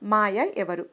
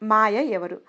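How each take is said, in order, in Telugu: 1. ఇది తడబడుతూ, ధైర్యంగా అడిగిన ప్రశ్నలా పలుకుతారు. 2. ప్రతి అక్షరాన్నీ కోపంతో గట్టిగా ఒత్తి పలుకుతారు. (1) "ధైర్యం చేసి అడగాలనుకుంది" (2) "ఒక్కో అక్షరాన్ని కోపంగా ఒత్తి పలుకుతూ"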